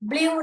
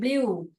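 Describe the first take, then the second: First: The vowel is not a long oo sound. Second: The vowel is a long oo sound. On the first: The speaker calls it wrong. "ब्लू नहीं बोलते हैं" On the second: The speaker calls it right. "ऊ आता है यहाँ पर sound"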